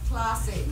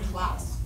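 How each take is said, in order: First: The final e is pronounced as a vowel. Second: The final e is silent. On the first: Every written letter is read aloud. The speaker calls it wrong. "in Spanish, like you would say like, classe" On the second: The final letter is not read aloud. The speaker calls it right. "it's pronounced class"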